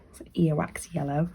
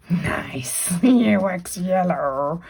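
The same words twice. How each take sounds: First: Said in the usual way. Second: Slow whispered "Nice earwax yellow"; mock-reverent whisper. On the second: Shown as a demonstration. Teacher savouring the silly colour name, slow whisper. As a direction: breathe "earwax" slowly with a laugh.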